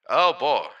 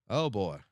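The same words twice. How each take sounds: First: Loud, raised exclamation. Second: Said in the usual way. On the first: Shown as a demonstration. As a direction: belt it out. Testing voice, loud take.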